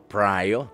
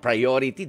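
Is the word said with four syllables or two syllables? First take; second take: two syllables; four syllables. First: The word is clipped to two syllables. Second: The word is said in full with four syllables.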